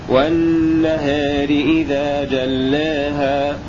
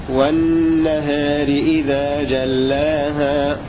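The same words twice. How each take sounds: The two takes are said the same way.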